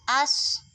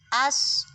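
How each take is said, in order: Both takes have the same delivery.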